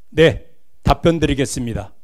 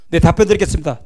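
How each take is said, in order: First: It is said at a steady, firm pace. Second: It is said quickly and hurriedly.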